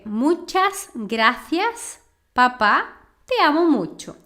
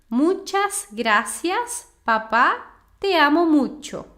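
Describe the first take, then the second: First: It is said with a Spanish accent from Spain. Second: It is said with a Latin American Spanish accent. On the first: "na Espanha, falaria"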